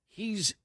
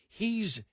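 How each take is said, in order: The two takes are said the same way.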